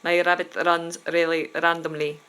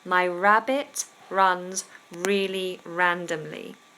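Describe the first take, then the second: First: The R sounds are tapped or rolled. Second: The R sounds are smooth, without rolling. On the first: The speaker calls it wrong. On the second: The speaker calls it right.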